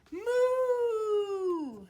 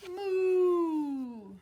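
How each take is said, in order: First: High, loud mooing; cow moo. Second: Loud mooing moo; cow moo. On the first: Acted. Teacher voicing the cows for a child, loud moo. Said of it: "They say". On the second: Shown as a demonstration. Teacher inviting the child to moo, loud moo. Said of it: "Can you say".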